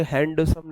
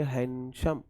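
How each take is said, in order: First: हैंडसम with the D fully sounded, hand-sum; over-literal pronunciation. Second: हैंडसम with the D dropped, han-shum; natural pronunciation. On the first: Teacher showing what people don't say, हैंडसम with a clear D. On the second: Teacher showing how the word is spoken, हैंडसम without its D. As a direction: say हैंडसम in two beats, han then shum. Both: Shown as a demonstration. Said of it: "इसे हैंडसम नहीं बोलते".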